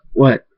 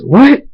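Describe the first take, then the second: First: Said in the usual way. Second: High, loud, rising yelp of alarm; startled, pitched way up at the end; shocked outburst. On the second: Acted. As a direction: blurt it out in panic. Shock at waters breaking.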